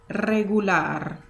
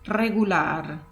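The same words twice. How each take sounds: No difference in how they are said.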